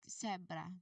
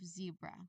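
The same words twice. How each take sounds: First: The first sound is a voiceless hiss. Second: The first sound is a voiced buzz. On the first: The speaker calls it wrong. "if you don't use your voice, it will sound like" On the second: The speaker calls it right. "instead of"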